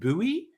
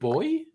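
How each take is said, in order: First: The word is said in an American way. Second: The word is said in a non-American way. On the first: "Their insistence of saying buoy" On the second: "instead of boy"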